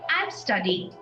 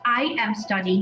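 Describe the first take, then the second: First: I am is contracted into one syllable. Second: I am is said as two full words. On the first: The speaker calls it right. "we say I'm studying" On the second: The speaker calls it wrong. "not I am studying"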